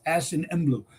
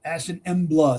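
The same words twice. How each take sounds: First: Emblu ending in an 'oo' sound; preferred pronunciation. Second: Embla ending in an open 'ah'; alternative pronunciation. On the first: Teacher giving the right form, Emblu said with a final 'oo'. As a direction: say Emblu as 'EM-bloo'. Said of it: "it's ash in Emblu". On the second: Teacher giving what some people say, Embla said with a final 'ah'. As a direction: say Embla as 'EM-blah'. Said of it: "sometimes people say Embla". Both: Shown as a demonstration.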